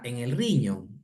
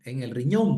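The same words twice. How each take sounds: First: "riñón" stressed on the first syllable, RIñon; riñón sin tilde. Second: "riñón" stressed on the last syllable, riÑÓN; stress on final O. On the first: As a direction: misread "riñón" as RIñon, as if unaccented. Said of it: "¿Qué es eso de riñón?". ("riñón" mal acentuado, como RIñon) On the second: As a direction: correct it to riÑÓN, accent on the O. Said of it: "con tilde en la O". ("riñón" con acento en la o final) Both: Shown as a demonstration.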